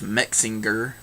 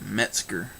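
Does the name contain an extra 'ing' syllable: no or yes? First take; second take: yes; no. First: The name has an extra 'ing' syllable. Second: The name has no 'ing' syllable. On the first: The speaker calls it wrong. "like it's got an ing in there somewhere" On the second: The speaker calls it right. "and it's Metzger"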